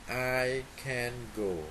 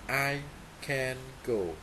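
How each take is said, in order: Both takes have the same delivery.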